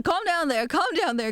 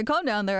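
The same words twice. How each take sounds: First: Higher calm down. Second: Said in the usual way. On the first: Shown as a demonstration. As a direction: tease Calm down there up high. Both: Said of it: "Oh, hold on".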